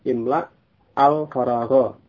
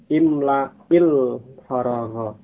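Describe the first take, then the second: First: The words are read separately, without a linking vowel. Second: The words are joined by a linking i sound.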